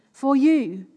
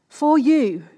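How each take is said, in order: First: "for you" with "you" hit firmly; stress on you. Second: "for you" with "for" leaned on and louder; stress on for. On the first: Preacher assuring each listener personally, stressing "you". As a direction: land hard on "you" in "for you". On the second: Preacher insisting Jesus has time for the listener, stressing "for". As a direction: push on "for" in "for you". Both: Shown as a demonstration. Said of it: "Not just for the person sat next to you".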